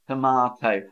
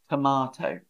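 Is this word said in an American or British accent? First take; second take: British; British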